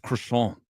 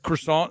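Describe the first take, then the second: First: It is pronounced the French way. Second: It is pronounced the English way. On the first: The speaker calls it right. "the French guy's like" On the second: The speaker calls it wrong. "He says croissant"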